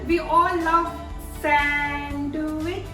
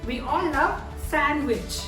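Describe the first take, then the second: First: The d sound is pronounced. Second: The d sound is silent. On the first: The speaker calls it wrong. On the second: The speaker calls it right. "D is silent in this word"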